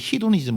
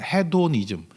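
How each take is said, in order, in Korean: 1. 미국식으로 발음해요. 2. 한국식으로 발음해요. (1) "미국 애들은 히도니즘 뭐 이러던데" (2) "그냥 한국말로 발음할 때는"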